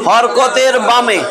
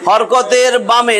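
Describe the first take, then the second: No difference in how they are said.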